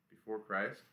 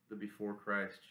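First: "Before Christ" rising at the end as a question; questioning echo. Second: Said in the usual way. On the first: A narrator's reading. Local man querying the band's odd name, "Before Christ" rising as a question.

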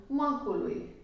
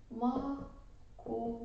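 First: Said in the usual way. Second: Macului said slow and much softer, maku drawn out; slowed to show the diphthong. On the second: Shown as a demonstration. (Macului rostit rar și încet, cu maku lungit) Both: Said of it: "În cuvântul acesta există un diftong".

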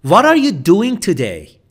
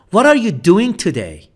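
No difference in how they are said.

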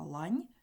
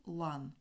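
First: Лань ending in a soft palatalised "n"; soft final consonant. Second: Лан ending in a hard, unsoftened "n"; hard final consonant. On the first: Teacher contrasting a word pair for pupils, soft ending. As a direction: soften the final н of лань, tongue against the palate. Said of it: "є один м'який приголосний". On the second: Teacher contrasting a word pair for pupils, hard ending. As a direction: keep the final н of лан firm, without palatalising. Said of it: "тут всі приголосні тверді". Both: Shown as a demonstration.

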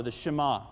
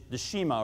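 First: Shema as shuh-MAH; alternative pronunciation. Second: Shema as SHEE-ma; first pronunciation attempt. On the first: Preacher offering another accenting, Shema said shuh-MAH. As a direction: stress the last syllable of Shema, shuh-MAH. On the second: Preacher unsure of the Hebrew word, Shema said SHEE-ma. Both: Shown as a demonstration. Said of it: "I may mispronounce the accent".

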